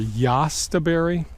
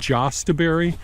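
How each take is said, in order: First: The word begins with a Y sound. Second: The word begins with a J sound. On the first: "or yastaberry" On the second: "Some people pronounce them as jostaberry"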